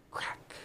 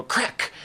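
First: Hushed, unvoiced sound-effect word; whisper. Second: Said in the usual way. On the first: Imitating a villain echoing a breaking arm, whispered. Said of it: "and he'll just whisper". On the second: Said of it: "it'll go crack".

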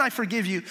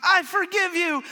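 First: Said in the usual way. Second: "I forgive you" much higher and slower, hammed-up movie tears; mock tearful forgiveness. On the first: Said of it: "I've done". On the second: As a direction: overplay a sappy film moment of forgiveness. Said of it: "with tears in your eyes".

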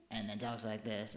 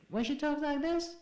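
First: Said in the usual way. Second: Much higher, sing-song lilt; high affected sing-song voice. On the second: Shown as a demonstration. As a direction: lift it into a bright sing-song.

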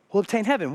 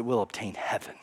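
First: Said in the usual way. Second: Much softer and lower, falling; hushed promise. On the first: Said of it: "He says that we'll obtain heaven". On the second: Shown as a demonstration. Pastor softly tells congregation the promise, hushed. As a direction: drop it to a near hush.

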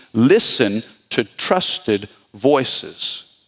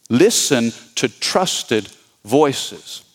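First: Slow, deliberate repeat; slow emphasis. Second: Slow, deliberate echo; slow repeat. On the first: Pastor to church, slow and deliberate. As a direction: lay each word down slowly. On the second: Pastor to church, slow and weighty repeat. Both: Shown as a demonstration.

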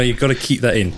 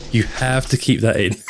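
First: Said in the usual way. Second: Laughing shout through giggles. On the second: Real, not acted. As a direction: say it while cracking up. Laughing at assistant interrupting.

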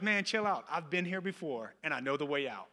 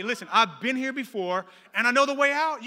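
First: Retold unruffled friend, winding down gently; cool, low-key reassurance; calm reassurance. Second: Loud, raised preaching delivery; building to a high, forceful peak; emphatic exhortation. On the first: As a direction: settle him down, easing lower at the end. Rescuer calms the panicking man. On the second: Acted. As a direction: drive it home to the congregation. Preacher repeats line as exhortation.

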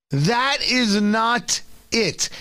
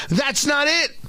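First: "That is not it" said slow, each word hit; slow stressed. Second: Said in the usual way. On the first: Real, not acted. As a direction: slowly punch "That is not it" word by word.

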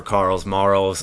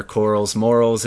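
First: "Carl's Morals" with Carl's as one syllable; "Carl's Morals" said as the segment's first name; first pronunciation. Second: "Coral's Morals" with Coral's rhyming with Morals; "Coral's" in two syllables, matching "Morals"; alternative pronunciation. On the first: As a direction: say "Carl's Morals" to rhyme like "Carls Marls". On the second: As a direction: say "Coral's Morals" as a full rhyme. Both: Shown as a demonstration. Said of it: "or Coral's Morals if you prefer".

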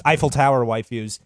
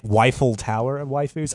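First: Said in the usual way. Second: "Weifel" said with a W in front; slip on Eiffel. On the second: Real, not acted. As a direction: start "Weifel" with a W, echoing "waifus". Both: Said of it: "just not Weifel".

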